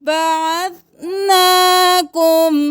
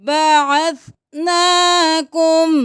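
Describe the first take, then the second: The two takes are said the same way.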